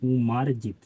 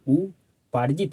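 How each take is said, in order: First: The second consonant is an m sound. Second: The second consonant is a p sound. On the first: The speaker calls it wrong. "तो ये गलत है जी" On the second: The speaker calls it right. "हमें बोलना क्या चाहिए"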